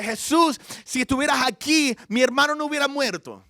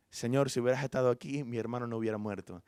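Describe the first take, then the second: First: Loud, high-pitched reproach; indignant complaint. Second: Low, softening grief; subdued lament. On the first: Martha confronting Jesus over her dead brother, loudly complaining. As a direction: complain to him, raised voice, somewhat angry. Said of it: "Quejándose con él. Quizás un poco bravo". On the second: Mary telling Jesus of her brother's death, subdued lament. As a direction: say it quietly, sinking at the end. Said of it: "la vio llorando y lamentando". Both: Retold or imitated.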